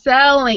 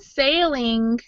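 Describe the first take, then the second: First: The vowel sounds like the one in 'sell'. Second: The vowel sounds like the one in 'sail'. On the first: The speaker calls it right. "it's selling" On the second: The speaker calls it wrong. "saying sale instead of sell"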